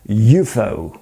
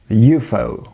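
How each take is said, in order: No difference in how they are said.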